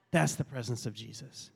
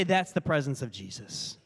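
First: Lower, softer solemn repeat; hushed reverence. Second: Said in the usual way. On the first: Real, not acted. Pastor answering the onlookers about Jesus, hushed and reverent. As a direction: let it settle low and soft.

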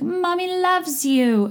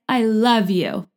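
First: High, drawn-out cooing; Cameron and Dorit mommy voice. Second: Said in the usual way. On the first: Retold or imitated. Owner calling to Tugboat all day, mock mommy voice. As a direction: stretch it out in hammed-up baby talk. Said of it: "I am just channeling Cameron and Dorit". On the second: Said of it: "she's just like".

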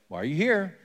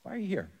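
First: God asking Elijah plainly, a slight lift; asked straight out, with a small rise in pitch; one possible tone. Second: Much softer, hushed, with the pitch lifted; another possible tone. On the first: Preacher tries God's question one way, mildly curious. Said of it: "I don't know if it's a little bit more like". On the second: Preacher tries God's question as a soft, gentle ask. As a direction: ask it gently and quietly, leaning on you. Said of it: "Or if it's". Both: Shown as a demonstration.

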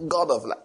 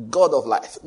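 First: Said in the usual way. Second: Mock prayer call. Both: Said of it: "how you call the name of God".

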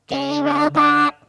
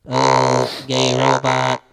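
First: Synthetic robot voice, pitched up; a higher machine voice, evenly spoken. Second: Robot voice. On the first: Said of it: "It's better". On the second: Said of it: "can I do a robot?". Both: Shown as a demonstration.

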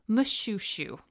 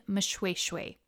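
First: Moshoeshoe said as muh-SHOO-shoo; wrong pronunciation. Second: Moshoeshoe said as muh-SHWAY-shway, slowly; correct pronunciation. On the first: Podcaster showing the misreading of a king's name, Moshoeshoe said muh-shoo-shoo. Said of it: "not the correct way to say his name". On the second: Podcaster correcting a king's name for listeners, Moshoeshoe said muh-shway-shway. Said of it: "not the correct way to say his name. It's". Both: Shown as a demonstration.

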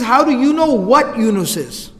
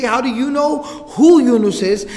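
First: WHAT emphasized in high, slow disbelief; stress on WHAT. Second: WHO punched out in high, slow disbelief; stress on WHO. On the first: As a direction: lean on "what" in a shocked question. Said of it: "He says". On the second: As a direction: lean hard on "who" in a shocked question. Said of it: "he doesn't even say". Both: Shown as a demonstration.

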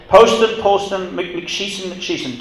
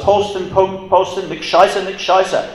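First: "McSheeson" said as mick-SHEE-son, with an SH and a long EE; intended German shout. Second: "McScheisser" said as mick-SHY-ser, with an SH and a long I; botched German shout. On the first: Prisoner calling to the guard, meaning to say it right, a mock plea. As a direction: Polston Polston then "McSheeson", higher and calling out like a plea. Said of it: "He, he meant to yell".

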